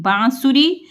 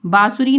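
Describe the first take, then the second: First: "बांसुरी" as bãasuri, through the nose; nasalised vowel. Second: "बांसुरी" as oral baasuri; the mistaken "बांसुरी", no nasal aa; without nasal. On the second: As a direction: say "बांसुरी" with a plain open aa. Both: Shown as a demonstration. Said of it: "बांसुरी नहीं".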